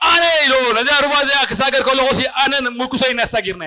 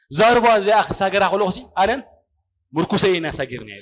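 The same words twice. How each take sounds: First: Mildly raised, proclaiming retelling; raised preaching quote. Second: Said in the usual way. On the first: Retold or imitated.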